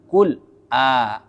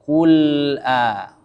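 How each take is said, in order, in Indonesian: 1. Huruf lam terputus sebelum alif. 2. Huruf lam langsung menyambung ke alif. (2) "langsung kul a"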